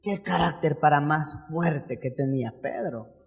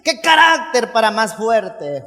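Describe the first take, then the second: First: Low, soft marveling remark; quiet aside as a gossiping onlooker; hushed awe. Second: Slow, drawn-out exclamation; hammed-up amazement, leaning on CARÁCTER; mock awe. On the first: Acted. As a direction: say it under the voice, impressed. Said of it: "o cualquiera diría". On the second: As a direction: exaggerate how impressed you are.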